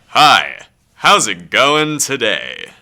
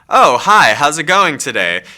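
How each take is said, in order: First: It is said in a big, exaggerated way. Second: It is said in a plain, natural way.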